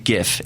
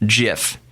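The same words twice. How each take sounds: First: It begins with a hard G, as in graphics. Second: It begins with a soft G, as in giraffe. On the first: The speaker calls it right. "the G in graphics" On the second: The speaker calls it wrong. "If it was giraffe interchange format, it would be pronounced GIF"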